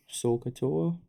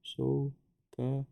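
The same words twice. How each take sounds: First: Said in the usual way. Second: "sokatoa" very slowly, split into so, ka, toa; syllable by syllable. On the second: Shown as a demonstration. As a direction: pause between the parts of "sokatoa". Breaks memory word into syllables.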